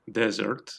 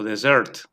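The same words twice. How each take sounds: First: Dessert with the stress on its first syllable, DES-sert. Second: Dessert with the stress on its last syllable, des-SERT. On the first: Teacher shows learners one accepted English pronunciation, first-syllable stress on dessert. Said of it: "acentuar en la primera sílaba". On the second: Teacher shows learners the other accepted pronunciation, last-syllable stress on dessert. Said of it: "o en la última". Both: Shown as a demonstration.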